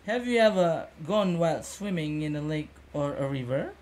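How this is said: The tune rises at the end like a question.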